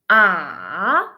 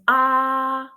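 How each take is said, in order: First: It is said with the third tone. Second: It is said with the first tone. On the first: "The third one" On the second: "the first tone is ah"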